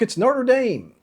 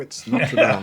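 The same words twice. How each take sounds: First: Notre Dame is said the American way. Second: Notre Dame is said the French way.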